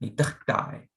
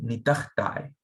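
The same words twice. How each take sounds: First: The ending is shortened to a single 'I' sound. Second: The ending is shortened to a single 'I' sound.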